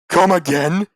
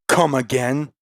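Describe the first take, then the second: First: It is said loudly, with slurred words. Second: It is said quietly.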